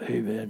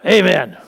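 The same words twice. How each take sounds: First: The word is said weakly and without force. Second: The word is said loudly and with force. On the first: The speaker calls it wrong. "you don't amen" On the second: The speaker calls it right. "You go amen. Say it with authority. Say it with power"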